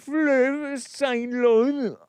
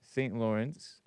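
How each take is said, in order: First: High, loud, hammed-up French; over-the-top French pronunciation, very drawn out; mock French accent. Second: Said in the usual way. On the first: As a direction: stretch it slowly in exaggerated French. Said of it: "in a French accent". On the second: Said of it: "Saint Lawrence River in English".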